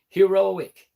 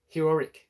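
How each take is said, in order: First: The ending sounds like a plain 'ick'. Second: The ending sounds like an extra 'rick'. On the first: The speaker calls it right. "There it goes" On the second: The speaker calls it wrong. "I'm putting the Rick in there"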